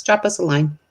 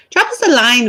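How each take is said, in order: First: Said in the usual way. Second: "Drop us a line" in a playful hint of Irish lilt; a light Irish lilt on "Drop us a line", said for fun; a touch of Irish brogue on "Drop us a line"; light Irish accent. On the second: Shown as a demonstration. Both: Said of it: "I don't know why I became Irish today".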